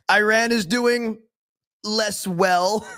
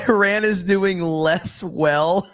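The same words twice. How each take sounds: First: Quoting Trump again while cracking up, voice higher; giggling parody of the quote; laughing Trump mock. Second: Mocking Trump. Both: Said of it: "Who talks like this?".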